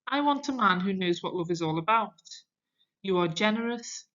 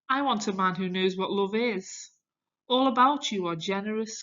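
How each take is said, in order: First: The pause comes after 'about'. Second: The pause comes after 'is'.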